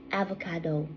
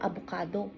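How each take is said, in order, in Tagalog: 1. Binibigkas ito gamit ang pagbigkas na Canadian English. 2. Binibigkas ito gamit ang pagbigkas na Filipino. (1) "kapag ang kausap mo ay Canadian" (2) "kung ang kausap mo ay Pilipino"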